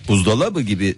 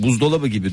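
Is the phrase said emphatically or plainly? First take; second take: emphatically; plainly. First: The phrase is said with marked, deliberate emphasis. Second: The phrase is said plainly, without special emphasis. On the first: The speaker calls it right. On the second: The speaker calls it wrong.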